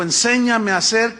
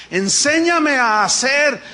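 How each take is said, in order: First: Said in the usual way. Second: "Enséñame a hacer" slow, loud and higher, every syllable weighted; emphatic reading. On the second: Acted. Preacher stresses David's prayer to the congregation, slow emphatic. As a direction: lean hard on "Enséñame", drawn out.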